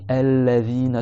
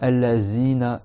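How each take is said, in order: First: The consonant is a soft 'th' with tongue out. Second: The consonant is a 'z' with clenched teeth. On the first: The speaker calls it right. "Il faut que le bout de la langue, il sorte sous les dents du haut" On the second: The speaker calls it wrong. "C'est pas El-Lazina, ... en serrant les dents. Ça, c'est faux"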